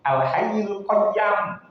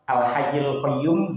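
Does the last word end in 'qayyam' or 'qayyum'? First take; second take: qayyam; qayyum. First: The last word is said with an 'a' vowel. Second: The last word is said with an 'u' vowel. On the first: "al-hayyul qayyam nggih bener" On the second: "al-hayyul qayyum nggih bener"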